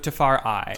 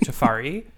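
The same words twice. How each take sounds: First: The name is said with an 'eye' vowel sound. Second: The name is said without an 'eye' vowel sound. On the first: The speaker calls it right. "Like an eye" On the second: The speaker calls it wrong. "called you Tafari"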